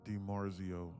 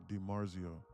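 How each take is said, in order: The two takes are said the same way.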